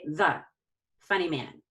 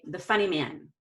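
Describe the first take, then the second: First: It is broken up by pauses between words. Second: It is said smoothly in one breath.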